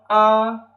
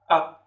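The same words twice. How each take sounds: First: It is said with the first tone. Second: It is said with the fifth tone.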